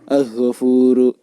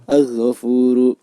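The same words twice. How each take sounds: Both takes have the same delivery.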